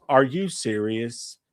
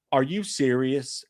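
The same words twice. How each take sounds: First: Slower still, mild judgmental drawl; judgmental old lady. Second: Slow, lightly voiced judgmental lady; judgmental old lady. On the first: Retold or imitated. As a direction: stretch each word, lightly mocking her. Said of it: "most judgmental look". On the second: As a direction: drag it out with light disbelief.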